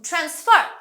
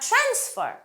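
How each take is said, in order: First: The stress is on the second syllable. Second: The stress is on the first syllable. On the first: It is used as a verb. "ভার্বে পরের অংশে stress হয়" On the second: It is used as a noun. "নাউনে আমাদের first অংশে stress হয়"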